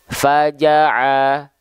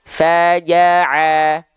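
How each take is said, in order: First: The vowels are open but said without smiling. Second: The vowels are said with lips spread smiling. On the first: The speaker calls it wrong. "Kalau dia tidak tersenyum, ... dia cuma buka mulut saja" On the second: The speaker calls it right. "Sekarang kita coba senyumin"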